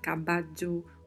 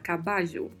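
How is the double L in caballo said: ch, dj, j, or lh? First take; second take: dj; j. First: The double L sounds like dj. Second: The double L sounds like Portuguese j. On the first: "um som de DJ" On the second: "um som de J"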